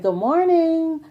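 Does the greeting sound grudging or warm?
warm. It is said in a bright, friendly tone. The speaker sincerely means the greeting. The speaker calls it right. "See, the tone is so different"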